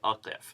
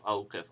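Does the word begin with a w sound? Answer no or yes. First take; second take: no; yes. First: No w sound comes before the q. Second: A w sound comes before the q. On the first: The speaker calls it right. "eventually you give up and just say aqif" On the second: The speaker calls it wrong. "if you pronounce awqif"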